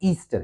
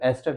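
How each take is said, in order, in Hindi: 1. पहला स्वर लंबा 'ee' है। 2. पहला स्वर छोटा 'e' है। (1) "बच्चे अक्सर इसको क्या कहते हैं, they call it ईस्टर" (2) "एस्टर है ना कि ईस्टर"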